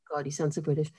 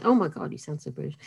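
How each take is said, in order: First: Hushed American-style aside; American reaction. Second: Quick mock-American gush, kept low; American exclamation. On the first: Retold or imitated. Outsider quoting Americans' reaction to her accent, hushed mock American. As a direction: imitate Americans, softly, almost whispered. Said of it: "So Americans say". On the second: Outsider correcting her quote of Americans, quick mock American. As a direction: imitate an American reacting, rattled off. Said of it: "They say".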